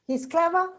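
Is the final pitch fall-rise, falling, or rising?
rising. The pitch rises at the end. It is a question. "it becomes a question"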